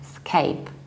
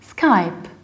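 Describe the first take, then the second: First: The vowel sounds like the 'a' in 'cape'. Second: The vowel sounds like the 'y' in 'sky'. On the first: The speaker calls it wrong. "scape with the e" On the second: The speaker calls it right. "Skype is like sky"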